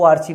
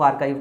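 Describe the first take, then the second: First: The middle sound is 'ch', ending 'chiv'. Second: The middle sound is 'k', ending 'kive'. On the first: The speaker calls it wrong. "इसको आर्चिव नहीं पढ़ते" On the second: The speaker calls it right. "इसको आर्काइव पढ़ते हैं"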